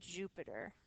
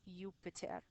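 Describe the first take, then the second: First: The name begins with a j sound. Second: The name begins with a y sound. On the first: This is the English pronunciation. "with that j sound" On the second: This is the Latin pronunciation. "when we're speaking in Latin"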